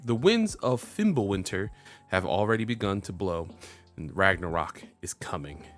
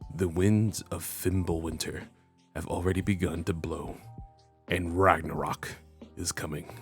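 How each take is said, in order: First: It is read in an ordinary speaking voice. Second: It is read in a dramatic put-on voice. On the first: The speaker calls it wrong. "I should have did that in my voice actor voice" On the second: The speaker calls it right. "my voice actor voice"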